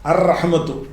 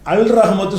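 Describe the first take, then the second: First: The l merges into the following consonant. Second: The article's l sound is clearly pronounced. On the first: The speaker calls it right. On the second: The speaker calls it wrong.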